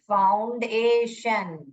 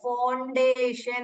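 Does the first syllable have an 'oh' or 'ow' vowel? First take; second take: ow; oh. First: The first syllable has an 'ow' vowel. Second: The first syllable has a long 'oh' vowel. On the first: The speaker calls it right. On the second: The speaker calls it wrong.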